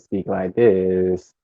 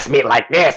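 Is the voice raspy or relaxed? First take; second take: relaxed; raspy. First: The voice sounds smooth and relaxed. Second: The voice sounds rough and raspy. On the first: "it's just more relaxed in a way" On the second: "this just sounds very raspy"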